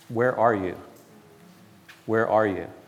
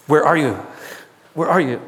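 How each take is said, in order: First: It is said in a gentle, loving tone. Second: It is said in a harsh, angry tone.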